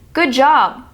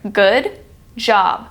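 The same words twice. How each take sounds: First: The two words are linked into one. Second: The two words are said separately. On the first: "But when put together, listen closely" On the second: "When separated out, these words sound separate"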